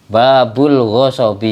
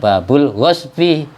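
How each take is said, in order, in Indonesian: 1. Ada vokal terdengar di antara gh dan s. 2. Tidak ada vokal terdengar di antara gh dan s. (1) "Kalau shotnya diharokati fathah ... ya salah sorobnya" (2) "Yang benar babul ghosbi, shotnya sukun"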